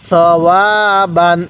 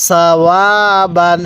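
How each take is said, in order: No difference in how they are said.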